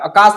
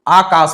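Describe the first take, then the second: First: The first vowel is a short a. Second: The first vowel is a long aa. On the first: The speaker calls it wrong. "आकाश नहीं" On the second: The speaker calls it right. "आकाश होता है"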